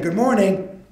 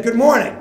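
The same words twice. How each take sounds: First: Said in the usual way. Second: Bright, loud and eager hello; nervous greeting. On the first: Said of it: "He said it again". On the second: Retold or imitated. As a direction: call out an overeager good morning. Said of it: "So the kid said".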